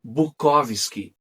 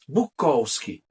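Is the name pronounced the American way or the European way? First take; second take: European; American. First: The name is said with a compact European pronunciation. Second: The name is said with an Americanized pronunciation. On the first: This is the original pronunciation from the old country. "a pronúncia europeia e mais compacta" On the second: The family adopted this pronunciation after emigrating. "mudaram a pronúncia de seu sobrenome para Bukowski"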